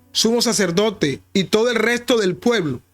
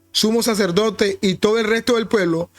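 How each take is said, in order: No difference in how they are said.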